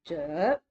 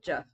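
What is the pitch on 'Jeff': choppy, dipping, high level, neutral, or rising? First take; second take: dipping; neutral. First: The pitch dips down then rises. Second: The pitch is light and neutral. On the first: "the tone that dips down and goes up" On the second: "Half is just neutral"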